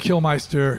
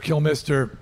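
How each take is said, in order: First: The middle syllable sounds like 'mice-ter'. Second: The middle syllable sounds like 'miss-ter'. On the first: The speaker calls it wrong. "I always say, but I say Meister" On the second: The speaker calls it right. "It's Mister"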